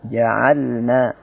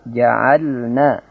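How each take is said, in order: The two takes are said the same way.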